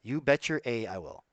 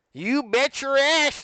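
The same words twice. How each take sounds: First: Said in the usual way. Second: High, loud, drawn-out exclamation; hammed-up high holler; emphatic holler. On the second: Shown as a demonstration. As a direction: belt it out slowly with relish. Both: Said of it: "it's supposed to be like".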